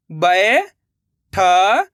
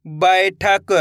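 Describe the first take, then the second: First: बैठक stretched very slowly, rising; drawn-out sounding out. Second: Said in the usual way. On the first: Shown as a demonstration. Teacher sounding out बैठक slowly for pupils. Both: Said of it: "अब आगे देखिए".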